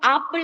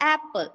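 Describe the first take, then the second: First: The first vowel is an open 'ah' sound. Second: The first vowel is a front 'eh' sound. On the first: The speaker calls it wrong. "നമ്മൾ ഒരിക്കലും ആപ്പിൾ എന്നല്ലല്ലോ പറയാ" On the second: The speaker calls it right. "എ എ അങ്ങനെ ഒരു സൗണ്ടാ വരാ"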